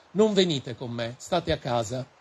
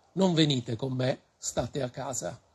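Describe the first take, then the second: No difference in how they are said.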